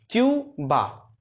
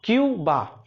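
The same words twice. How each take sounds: First: Cuba drawn out, very slow syllables; stretched out slowly. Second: Said in the usual way. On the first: Shown as a demonstration. (Cuba को धीरे-धीरे खींचकर) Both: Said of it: "drilling the word".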